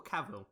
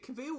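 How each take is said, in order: First: "Cavill" said as KAV-ul; stress on first syllable. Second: "Cavill" said as kuh-VILL; stress on second syllable. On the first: Host checking the surname, "Cavill" as KAV-ul. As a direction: say "Cavill" with a short a, stressing "Cav". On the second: Host checking the surname, "Cavill" as kuh-VILL. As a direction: say "Cavill" with a weak first vowel, stressing "vill". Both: Shown as a demonstration. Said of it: "is it Cavill or Cavill?".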